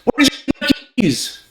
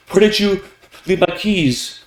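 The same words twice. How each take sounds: First: Very high, agitated question; high-pitched arousal. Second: Raised pitch, measured question; mildly aroused pitch. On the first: Speaker demanding lost keys, high and agitated. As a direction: shoot the pitch right up in alarm. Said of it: "indicate arousal". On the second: Speaker asking after lost keys, pitch moderately raised. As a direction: ask it a little higher, not yet urgent. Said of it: "pitch often goes along with pace to indicate arousal". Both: Shown as a demonstration.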